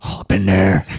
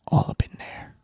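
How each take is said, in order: First: The same words belted out loud; loud, punchy repeat. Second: Breathy whispered aside; hushed, sly whisper. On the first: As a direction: blurt it out loud after the whisper. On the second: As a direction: whisper it like a secret. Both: Pretend. Dogs sniffing each other.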